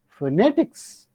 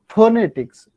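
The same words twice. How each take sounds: First: The stress is on the second syllable. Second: The stress is not on the second syllable. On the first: The speaker calls it right. "You say phonetics" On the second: The speaker calls it wrong. "not phonetics"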